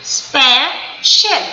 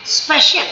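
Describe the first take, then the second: First: special slow, spe... shial, with a gap; two separate stresses. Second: Said in the usual way. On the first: Shown as a demonstration. Teacher has pupils feel the jaw, special in two slow syllables. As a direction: split special into two drawn-out beats. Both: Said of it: "दो बार आपकी jaw line नीचे जाती है".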